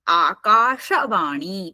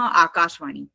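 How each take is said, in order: First: The word is said carefully and fully. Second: The word is said quickly and clipped. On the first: The speaker calls it right. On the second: The speaker calls it wrong.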